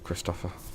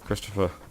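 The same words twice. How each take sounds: First: The name is said the Scandinavian way. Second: The name is said the usual English way.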